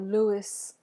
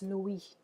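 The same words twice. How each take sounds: First: It ends with an audible S sound. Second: It ends with no S sound. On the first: "as we would say in English" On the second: "pronounced Louis in French. No S"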